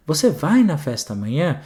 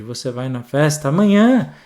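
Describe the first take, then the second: First: Rising question tune from the first word; questioning lilt; question intonation from the start. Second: Flat start, then a rise on amanhã; louder rising finish on amanhã; late question tune. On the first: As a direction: read it knowing it's a question. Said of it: "como é que a gente faz na leitura". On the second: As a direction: realise only at the end that it's a question. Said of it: "Ou então volta e lê de novo". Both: Shown as a demonstration.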